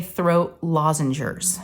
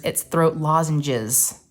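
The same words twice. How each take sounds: First: 'throat lozengers' said her way, with an extra r sound: lozen-gers; throat lozengers. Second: 'throat lozenges' said slowly, the correct way, no r; husband's pronunciation. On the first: Shown as a demonstration. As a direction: say 'throat lozengers' the way she always does. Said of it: "I say throat lozengers". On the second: Retold or imitated. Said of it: "He said, "No, it's not throat lozengers".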